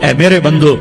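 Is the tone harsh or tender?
harsh. It is said in a plain, stern tone. The speaker calls it wrong.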